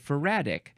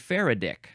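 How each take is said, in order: First: The stress is on the second syllable. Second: The stress is on the first syllable. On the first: It follows the usual stress rule for words ending in -ic. "the way we emphasize the syllables, when we have this I C at the end, you'd have to say Faradic" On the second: It keeps the stress of the surname. "you'd say Faraday, it'd be Faradic"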